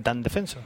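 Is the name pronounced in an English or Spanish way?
English. The name is pronounced with English-style sounds. The speaker calls it wrong. "Pero no Dan Defensor"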